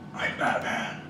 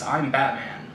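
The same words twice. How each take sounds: First: It is said in a put-on, disguised voice. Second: It is said in an ordinary, undisguised voice. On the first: The hero hides his everyday identity. "But you sound like Bruce Wayne. Oh. I mean" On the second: The hero sounds like his everyday self. "Everybody else disguises their voice in some way. He just like"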